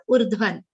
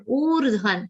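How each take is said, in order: First: Urdhvan clipped with a short first vowel; wrong short O. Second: Urdhvan with the first vowel held long; correct long O. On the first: Teacher shows the mistake to avoid, short vowel. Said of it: "and not". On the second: Teacher models the right vowel length for students, long. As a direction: say urdhvan stretching the O. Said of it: "O is a long sound". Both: Shown as a demonstration.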